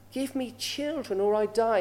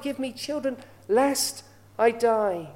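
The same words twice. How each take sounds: First: Said in the usual way. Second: Slow, drawn-out longing plea, lest I die stretched. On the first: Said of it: "Rachel, she said this". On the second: Retold or imitated. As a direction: beg for a child, slowly and heavy. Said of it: "she just had that longing for a child".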